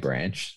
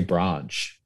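First: It is said in a Victorian accent. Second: It is said in an Adelaide accent. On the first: This is how people from Victoria say it. "You don't say branch" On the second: This is how locals here say it. "they say branch"

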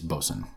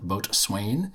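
First: The word is pronounced differently from its spelling. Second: The word is pronounced just as it is spelled. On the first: The speaker calls it right. "if you pronounce it the right way, it's Boatswain" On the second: The speaker calls it wrong. "which I incorrectly called Boatswain, which is how it's written"

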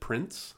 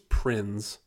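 First: The name ends with an s sound. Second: The name ends with a z sound. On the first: The speaker calls it wrong. "a lot of people, you know, always pronounce it Prince" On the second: The speaker calls it right. "I think it's Prinze. You have to pronounce the Z"

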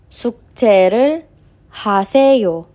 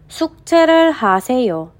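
First: It is spoken at a slower dictation pace. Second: It is spoken at a faster pace.

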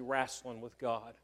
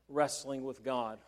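First: The word wrestling has a colloquial regional pronunciation. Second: The word wrestling has its standard pronunciation.

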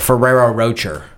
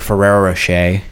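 First: The name is said in an anglicized British way. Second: The name is said close to its original form.

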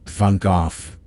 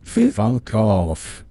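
First: The words are said at a fast pace. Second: The words are said at a normal pace.

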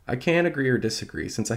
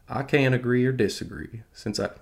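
First: It is said in the speaker's normal accent. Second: It is said in a put-on Southern accent. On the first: "No, I'm not going to do it" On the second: "I'll do it. It's fun"

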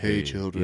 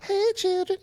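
First: The voice is low and deep. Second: The voice is high and light. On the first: How he might secretly have sounded. "But I bet he did deep voice" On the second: How he is usually imagined to sound. "Always picture him being like"

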